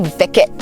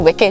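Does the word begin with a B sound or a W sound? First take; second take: B sound; W sound. First: The word begins with a B sound. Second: The word begins with a W sound. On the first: "She say with a B" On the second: "she don't say wicked"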